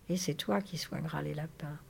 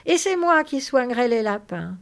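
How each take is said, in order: First: Softer, resigned repetition; subdued echo. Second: Loud, high, eager exclamation; thrilled. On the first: George echoes Lénie's dream back, subdued. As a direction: repeat it back quietly. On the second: Lénie claims the rabbits for himself, thrilled. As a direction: claim it with childlike excitement. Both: Acted.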